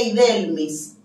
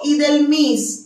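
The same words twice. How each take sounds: First: "Idelmis" with the weight on the middle syllable, del; Spanish penultimate stress. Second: "Idelmis" with the weight on the last syllable, mis; French final-syllable stress. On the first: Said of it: "se pronuncian como palabras llanas". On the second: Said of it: "siempre digo Idelmis en lugar de Idelmis". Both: Shown as a demonstration.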